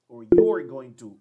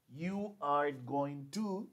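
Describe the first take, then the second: First: Said in the usual way. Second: Very slow, each word spaced; very slow long form. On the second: Shown as a demonstration. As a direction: spell out the full form. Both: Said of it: "Aquí yo digo".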